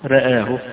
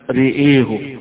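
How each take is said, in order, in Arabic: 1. كلا الحركتين تميلان قليلاً نحو e. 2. كلا الحركتين تميلان تماماً نحو e. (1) "بالتقليل، يعني الراء مرققة لا هي ممالة ولا هي مفتوحة" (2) "بإمالتين، إمالة الراء وإمالة الياء أيضا"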